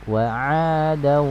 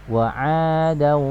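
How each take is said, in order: No difference in how they are said.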